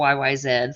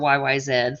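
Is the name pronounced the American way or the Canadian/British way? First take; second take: Canadian/British; Canadian/British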